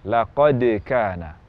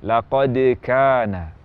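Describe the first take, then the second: No difference in how they are said.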